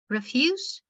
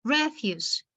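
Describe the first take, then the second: First: "refuse" stressed on the second syllable, re-FUSE, rising; verb stress. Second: "Refuse" stressed on the first syllable, REF-use, falling; noun stress. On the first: Teacher shows a word as a verb, "refuse" stressed on FUSE. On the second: Teacher shows a word as a noun, "Refuse" stressed on REF. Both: Shown as a demonstration. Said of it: "the pronunciation can be different".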